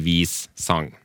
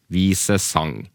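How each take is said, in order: First: The two parts join with no e sound. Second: A weak e sound joins the two parts. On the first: The speaker calls it wrong. "ikke vis sang" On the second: The speaker calls it right. "Vise, og så trykklett E, vise sang"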